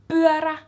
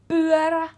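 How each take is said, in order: Both takes have the same delivery.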